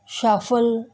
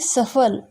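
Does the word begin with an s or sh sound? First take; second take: sh; s. First: The word begins with an sh sound. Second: The word begins with an s sound. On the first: The speaker calls it wrong. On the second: The speaker calls it right.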